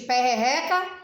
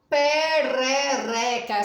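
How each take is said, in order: First: The middle r is a strong r. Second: The middle r is a weak tap. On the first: The speaker calls it wrong. "Se não eu vou falar perrereca e existe perrereca, não, né?" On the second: The speaker calls it right. "quando o re ele é, ó, fraco"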